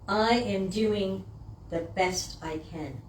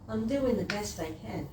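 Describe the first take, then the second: First: It sounds firm, proud and confident. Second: It sounds low, apologetic and deflated. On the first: It deserves applause. The speaker calls it right. "There should come after that a round of applause" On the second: It sounds like an excuse. The speaker calls it wrong. "we say that with such a low vibration"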